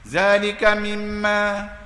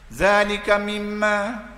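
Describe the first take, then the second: No difference in how they are said.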